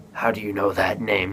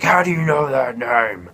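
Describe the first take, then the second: First: Understated imitation of being taken aback; lightly acted stunned question. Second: Strained, louder mock scream. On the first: Batman hearing his mother's name, mildly taken aback. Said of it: "like, taken aback". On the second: Batman screaming at Superman over the name, mock scream. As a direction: imitate screaming without full volume. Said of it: "He starts screaming".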